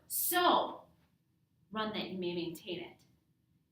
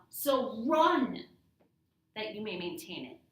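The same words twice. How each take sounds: First: The stress is on the word so. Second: The stress is on the word run.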